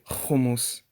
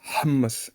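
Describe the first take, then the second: First: It begins with a rasping ch sound. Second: It begins with a throaty h sound. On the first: The speaker calls it wrong. "they just say hummus" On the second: The speaker calls it right. "It's pronounced hummus hummus in, in Arabic because it's het"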